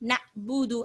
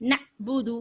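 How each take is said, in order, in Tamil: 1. நடுவில் உள்ள மெய்யெழுத்து விரைவான குரல்வளை நிறுத்தம். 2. நடுவில் உள்ள மெய்யெழுத்து விரைவான குரல்வளை நிறுத்தம்.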